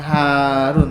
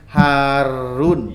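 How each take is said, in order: First: The r is short and single. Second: The r is held long and doubled. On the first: The speaker calls it wrong. "bukan Harun" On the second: The speaker calls it right. "Jadi R-nya harus terbawa duluan ya"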